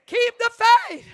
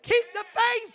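First: Loud preacher's cry; shouted exhortation. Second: Said in the usual way. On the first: Real, not acted. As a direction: shout it much louder, KEEP hit hard.

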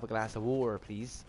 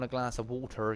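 First: Bristol accent, T dropped in "water". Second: Said in the usual way. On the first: Shown as a demonstration. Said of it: "around here we don't pronounce our T's". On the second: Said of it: "we don't pronounce our T's".

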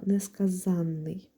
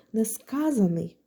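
First: «несказанний» stressed on the А of «зан»; slow «несказанний», stress late on «за́н», long double н; stress on -занний. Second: «несказаний» stressed on «ска»; slow «неска́заний», stress early on «ска́», single н; stress on second syllable. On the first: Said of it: "де наголос падає на літеру «а»". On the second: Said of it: "Наголос падає на другий склад". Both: Shown as a demonstration.

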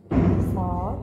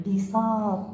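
First: بساط said louder with a rise at the end; louder stressed بساط; emphatic repeat. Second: Said in the usual way. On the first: Shown as a demonstration. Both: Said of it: "جاء في وسط الكلمة".

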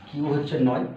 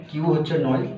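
The two takes are said the same way.

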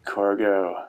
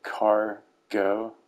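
First: Said in the usual way. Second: Cargo broken into CAR, pause, GO with a rise; Cargo split as a pun. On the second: Shown as a demonstration. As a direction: spell out the joke in Cargo: "car... go?". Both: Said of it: "Get it?".

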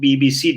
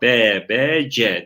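First: B B C as "bee bee see"; English letter names. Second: B B C as "be, be, ce"; Turkish letter names. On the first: Teacher gives the usual reading, B B C as "bee bee see". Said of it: "diye okuyoruz". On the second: Teacher contrasts readings for students, B B C as Turkish "be be ce". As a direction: read B B C the Turkish way, "be be je". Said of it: "Biz bunu B B C diye okuyoruz". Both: Shown as a demonstration.

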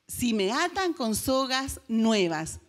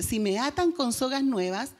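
First: Lento y marcado; repetido despacio. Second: Said in the usual way. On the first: Acted. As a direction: alarga cada palabra con calma. Sansón repite su secreto. (Sansón repite su secreto: lento y enfático)

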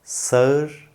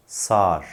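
First: "sağır" as sa-ır, pitched up; wrong as-spelled pronunciation. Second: "sağır" as one long saar, falling; correct spoken form. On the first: Teacher shows the mistake, "sağır" as sa-ır. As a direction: split "sağır" into two vowels. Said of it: "Yanlış telaffuz". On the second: Teacher gives the correction, "sağır" as saar. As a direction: stretch the a in "sağır", no ı. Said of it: "doğru telaffuz". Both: Shown as a demonstration.

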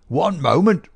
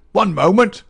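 First: Higher, louder querulous call from the doorway; querulous cry. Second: Even higher and louder insistent repeat; insist, cutting them off with the second call; querulous cry, building. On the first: Old man interrupting Holmes at the table, querulous cry. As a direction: cut in sharply, demanding a halt. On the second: Old man bursting in on the detectives, querulous cry. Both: A narrator's reading. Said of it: "cried a querulous voice".

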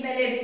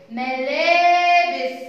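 First: Said in the usual way. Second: ملابس with the "laa" held very long and loud; ملابس drawn out on the long alif; long vowel. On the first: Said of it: "كلمة إيه؟". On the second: Shown as a demonstration. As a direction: stretch the laa in ملابس like a chant. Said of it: "ده صوت طويل".

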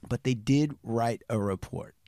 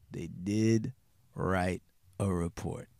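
First: Said in the usual way. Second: "They did... write a report", low, with a break after DID; deliberate repetition. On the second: Real, not acted. Line repeated for effect.

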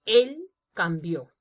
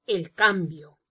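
First: "Él cambió" slowly, a separate "Él", then "cambió" stressed on BIÓ; stress on final BIÓ. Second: "cambio" with the beat on CAM, falling away on bio; stress on CAM. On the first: Teacher contrasts signs for students, stress on BIÓ in "cambió". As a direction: set "Él" apart and land on the last syllable of "cambió". Same words, stress moved to end. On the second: Teacher reads a sign to students, stress on CAM in "cambio". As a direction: lean on the first syllable of "cambio". Contrasting two signs differing in stress. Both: Shown as a demonstration.

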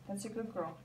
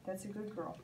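No difference in how they are said.

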